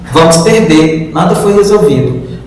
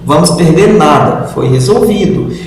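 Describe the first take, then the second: First: There is a pause after 'perder'. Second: There is a pause after 'nada'. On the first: We will lose; nothing was solved. "muda a entonação" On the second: We will lose nothing; it was solved. "muda a entonação"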